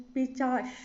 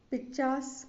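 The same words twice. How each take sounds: First: पिचास ending on a long SH; correct SH ending. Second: पिचास ending on S; wrong S ending. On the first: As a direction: say पिचास as "pichaash". (पिचास के अंत में "श") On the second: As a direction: say पिचास as "pichaas". (पिचास के अंत में "स") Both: Shown as a demonstration. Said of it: "गलत है".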